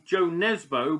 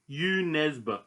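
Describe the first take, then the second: First: The first name begins with a J sound. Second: The first name begins with a vowel sound. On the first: This is how people usually say it. The speaker calls it wrong. "the author that we usually call" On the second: This is closer to the original pronunciation. The speaker calls it right. "I think the pronunciation is more like"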